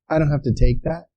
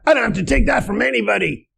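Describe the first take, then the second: First: It is said in a calm, composed tone. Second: It is said in an angry, reactive tone.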